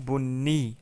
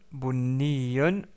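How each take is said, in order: First: The word ends on a plain -i sound. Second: The word ends with the -un ending. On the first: The speaker stops on this word. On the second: The word is not at a stopping point.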